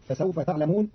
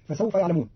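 First: تعلمون opened with "ta", not "ya"; ta of address. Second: Said in the usual way. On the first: Shown as a demonstration. Teacher showing Qalun's reading, تعلمون starting with ta. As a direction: say تعلمون as "ta'lamoon". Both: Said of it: "بتاء الخطاب".

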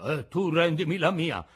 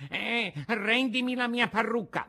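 First: Put-on louder, moderately raised old man's retort; Geppetto. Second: Put-on high-pitched indignant old man; Antonio, the carpenter. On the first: Old man retorts to the carpenter, loud counter-demand. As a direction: throw the demand straight back, louder. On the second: Carpenter demands his wig after the fight, high and indignant. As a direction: demand it back in a high character voice. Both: A narrator's reading.

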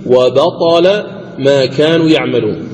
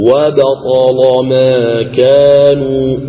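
First: Said in the usual way. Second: Slow chanted وبطل ما كانوا with a thick, velarized L in وبطل; tajweed demo, heavy lam in وبطل, long vowels. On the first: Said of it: "أيضًا قوله تعالى". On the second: Shown as a demonstration. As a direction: recite وبطل ما كانوا drawn out, darkening the "la". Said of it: "تغلظ اللام وجها واحد".

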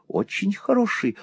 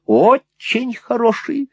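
First: Said in the usual way. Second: Очень stretched out, high and slow; emphatic repeat. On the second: A narrator's reading. Mother praises the suitor's gifts, emphatic "очень". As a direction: lean hard on "очень", pitch leaping.

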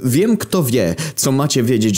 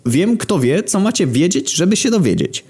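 First: Eager panting. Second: Eager repetition. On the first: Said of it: "Wysapał pełen entuzjazmu Grek". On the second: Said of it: "No, mówię". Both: Acted.

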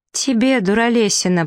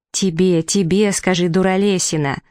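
First: Higher-pitched obedient echo; prince parroting. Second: Impatient, insistent prompt; feed the line with mild exasperation; exasperated prompting. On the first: Prince repeats his prompt to the wolf, parroting. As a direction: repeat the insult innocently, pitched up. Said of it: "повторил принц". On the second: Hidden green one prompts the prince, exasperated. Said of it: "зелёная, сколько же надо терпения". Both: A narrator's reading.

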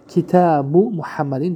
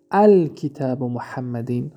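First: کتاب said as kitabu with no al-, before محمدین; correct form without al-. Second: الکتاب said with the article al-, as al-kitab, before محمدین; deliberate wrong take, الکتاب spoken as al-kitab; wrong form with al-. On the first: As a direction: slowly show the right کتاب as kitabu. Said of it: "درست". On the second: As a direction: slowly demonstrate the mistaken الکتاب with al- up front. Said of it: "خطا". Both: Shown as a demonstration.

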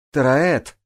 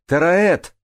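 First: Loud, higher-pitched call; shout. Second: Much higher, louder second call; louder shout. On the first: Джанель calls to Тараэт who hasn't surfaced, shouting. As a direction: call out for someone missing. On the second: Джанель calls the missing Тараэт a second time, shouting higher and louder. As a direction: shout the name with rising urgency. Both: A narrator's reading. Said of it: "крикнула Джанель".

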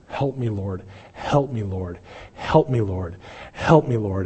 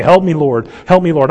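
First: Soft, pleading "Help me, Lord", no real scream; quiet retold plea. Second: Louder, higher cry of "Help me, Lord"; loud desperate plea. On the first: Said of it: "just screaming out". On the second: Retold or imitated. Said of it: "on the side of the woman going".

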